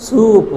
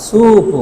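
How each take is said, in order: Both takes have the same delivery.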